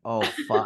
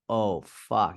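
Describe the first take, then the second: First: Put-on hard Boston accent on oh fuck. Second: Said in the usual way. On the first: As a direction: say it like a Boston firefighter. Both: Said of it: "He has this hard Boston accent".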